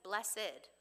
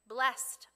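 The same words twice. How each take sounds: First: The word is pronounced in a fancy, old-fashioned way. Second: The word is pronounced in a plain, everyday way.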